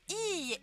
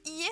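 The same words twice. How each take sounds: First: The i vowel is long. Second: The i vowel is short. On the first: It means no. The speaker calls it right. "on allonge bien le i" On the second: It means house. The speaker calls it wrong. "On dit pas iie parce que juste iie ça veut dire la maison"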